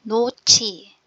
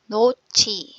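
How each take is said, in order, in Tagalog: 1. Aspiradong ch na tunog ang ikalawang katinig. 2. Aspiradong ch na tunog ang ikalawang katinig.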